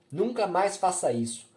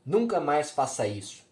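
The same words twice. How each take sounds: First: A higher, louder furious scream of the same order; a mother screaming hysterically at her daughter; frantic yelling. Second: A loud, angry shout of the order; a mother yelling at her daughter. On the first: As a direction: shriek it while shaking her. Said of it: "berrando, insana, tremendo". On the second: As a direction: bark the warning at her daughter. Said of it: "me empurrando e berrando". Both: A narrator's reading.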